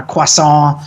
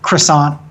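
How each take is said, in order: First: Croissant as kwah-SAHN, final t dropped; French-style croissant. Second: Croissant with an English r, kruh-SAHNT; anglicized croissant. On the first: Language nerd listing rival pronunciations, French-style croissant. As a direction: say croissant the French way, nasal ending. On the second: Language nerd listing rival pronunciations, anglicized croissant. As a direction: say croissant the American way, r pronounced. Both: Shown as a demonstration.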